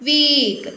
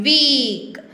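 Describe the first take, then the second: No difference in how they are said.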